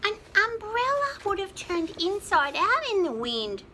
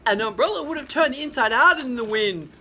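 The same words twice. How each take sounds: First: Said in the usual way. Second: Louder rooster voice, a hint of a growl; mild growl. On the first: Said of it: "Oh, sorry". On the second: A narrator's reading. Rooster scoffs at the umbrella idea, mild growl. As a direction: grumble it like a cross rooster. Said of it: "growled the little rooster".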